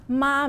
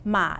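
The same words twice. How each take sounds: First: The pitch stays high and level. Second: The pitch dips low and then rises. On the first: It means mother. "Ma means mommy" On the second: It means horse. "Ma is horse"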